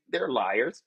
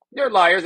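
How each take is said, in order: First: Said in the usual way. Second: Liars said again, louder and harder; insisting loudly; loud repeat. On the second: Real, not acted. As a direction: hit it the second time, louder.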